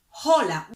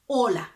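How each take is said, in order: First: The word begins with an audible H sound. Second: The word begins directly with the vowel. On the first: The speaker calls it wrong. "So we don't say hola" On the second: The speaker calls it right. "We don't pronounce the H. The H is silent"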